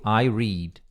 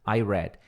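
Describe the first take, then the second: First: "read" with a long ee, like "reed"; present-tense pronunciation. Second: "read" with a short e, like "red"; past-tense pronunciation. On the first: English teacher showing same spelling, eu leio, "read" as "reed". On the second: English teacher showing same spelling, past, "read" as "red". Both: Shown as a demonstration. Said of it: "só que se pronuncia diferente".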